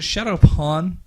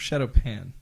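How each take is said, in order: First: The last word has an aw vowel. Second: The last word has a short a vowel. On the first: It makes them sound harder. "that sounds cooler. Shadow Pawn" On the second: It sounds like a cooking pan. "it spelled like pan, like a frying pan"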